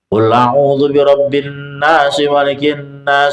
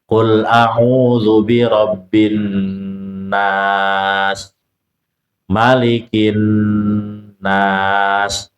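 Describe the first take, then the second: First: The verses run on without a pause. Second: There is a pause after each verse. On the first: "kalau dihantam terus" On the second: "diputus setiap ayat"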